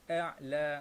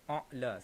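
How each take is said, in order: First: The vowel is light, with a thin clear sound. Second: The vowel is thickened, with a heavy dark sound. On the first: The speaker calls it right. "a'la macam tu ya, cara baca dia" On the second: The speaker calls it wrong. "sebab kita nak tebalkan huruf tersebut"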